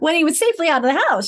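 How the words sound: The phrase is read as one smooth unit. The speaker calls it right. "should be better"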